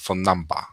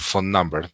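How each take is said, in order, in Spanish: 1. Se dice con acento británico. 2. Se dice con acento americano. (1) "habla inglés, pero mucho más británico" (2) "en vez de decir phone number"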